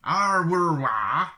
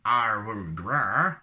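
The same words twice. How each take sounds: First: Loud, high mock Wookiee roar. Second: Wookiee groan. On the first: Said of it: "jump to hyperspace". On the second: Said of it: "and I'm feeling sick". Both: Shown as a demonstration.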